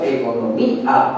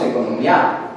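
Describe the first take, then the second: First: "economía" with a stressed "mí" and separate "a"; vowels in hiatus. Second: "economía" with the final "ía" run together as "yá"; wrongly joined vowels. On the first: Teacher showing the class how we pronounce it, "economía" with "í-a" kept apart. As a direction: say "economía" as eco-no-MÍ-a, two final syllables. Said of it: "Nosotros pronunciamos economía". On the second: Teacher showing how we don't say it, "economía" ending in a joined "myá". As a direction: say "economía" as eco-no-MYÁ, one last syllable. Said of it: "porque no pronunciamos economía".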